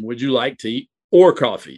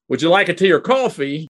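First: The voice falls at the end. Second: The voice rises at the end. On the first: It asks the listener to choose between the two drinks. "then it becomes a either or question" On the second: It asks whether the listener wants a drink at all. "is a yes or no question"

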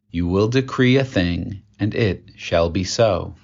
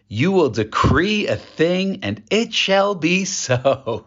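First: It is said calmly, without much energy. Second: It is said excitedly, with more energy.

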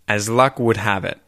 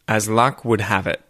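The two takes are said the same way.

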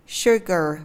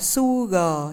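First: It begins with a hushing 'sh' sound. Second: It begins with a hissing 's' sound. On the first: The speaker calls it right. "mình đọc nó là chữ s nặng" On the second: The speaker calls it wrong. "đừng đọc nó là sugar nha"

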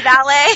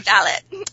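First: It is said with an American pronunciation. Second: It is said with a British pronunciation.

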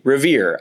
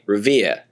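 First: It is said with the final r sounded. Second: It is said with the final r dropped. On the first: "in my Midwestern American English, I say Revere. I produce my post-vocalic Rs" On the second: "A lot of people in Boston don't ... they'd say Revere"

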